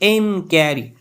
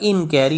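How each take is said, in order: First: The first syllable is said with strong stress. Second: The first syllable is said softly, without stress. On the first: "जब इन पे ज़्यादा stress दिया जाता है तो ये अमेरिकन एक्सेंट हो जाता है" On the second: "सॉफ्ट यानी नरम अंदाज में अनस्ट्रेस की सूरत में"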